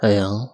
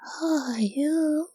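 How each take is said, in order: First: It is said in a put-on older man's voice. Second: It is said in a put-on girl's voice.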